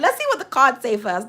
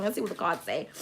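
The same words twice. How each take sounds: First: Said in the usual way. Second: Hushed aside. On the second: Acted. Reader murmurs to herself before drawing cards, hushed. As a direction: drop to a soft, hushed aside.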